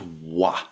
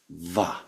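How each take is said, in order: First: The syllable starts with a rounded w sound. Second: The syllable starts with a soft v sound. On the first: The speaker calls it wrong. "No, it is not wa" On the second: The speaker calls it right. "It is va"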